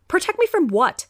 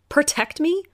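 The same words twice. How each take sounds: First: Higher, louder, falling at the end; insistent disbelief with a falling finish; demanding echo. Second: High, rising echo of his words; disbelieving echo rising at the end; echoing in disbelief. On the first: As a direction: press him for an answer. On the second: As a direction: repeat it back, stunned. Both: Acted. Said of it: "I echoed".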